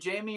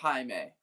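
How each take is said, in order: First: The name is said as 'jay-mee'. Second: The name is said as 'high-may'. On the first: "like J A Y M E E" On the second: "High, like H I May M A Y"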